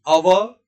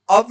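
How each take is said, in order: First: अव as a-va with the final vowel sounded, loud; correct अव. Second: अव cut short as "av", no final vowel; wrong अव. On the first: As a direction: open out the व at the end of अव. (अव के व का पूरा उच्चारण) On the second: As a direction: say अव ending on a bare v. (अव का व अधूरा) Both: Shown as a demonstration. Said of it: "अव नहीं".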